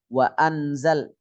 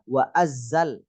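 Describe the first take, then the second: First: The n is pronounced clearly before z. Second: The n merges fully into a doubled z. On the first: "Bukan wa anzal" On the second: "bukan juga wa azzal"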